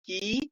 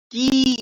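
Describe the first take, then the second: First: "की" said short and light; short light vowel. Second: "की" stretched long, louder and firm; drawn-out long vowel. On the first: Teacher showing students the light vowel, short "की". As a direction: keep "की" brief, softly released. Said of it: "इसको हल्का सा". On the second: Teacher showing students the pulled vowel, long loud "की". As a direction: hold the vowel of "की" out. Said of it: "थोड़ा सा खींच के". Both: Shown as a demonstration.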